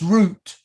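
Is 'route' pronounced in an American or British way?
British. The word is said with a British pronunciation. The speaker calls it right. "it's route"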